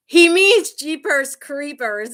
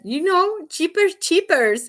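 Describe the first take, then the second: First: "Jeepers Creepers" said slowly and loudly, with a clear J and CR; correcting his pronunciation. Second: High, insistent mock Spanish accent; imitated Spanish-accented insistence, pitched way up; husband's bad Spanish accent. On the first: Retold or imitated. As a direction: spell out "Jeepers Creepers" by voice, drawn-out, high and loud. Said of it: "I'm looking at him like". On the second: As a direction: say "Cheapers Cheapers" slowly, with CH for J and no R, in a Spanish accent. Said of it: "accent and he just can't pronounce stuff right".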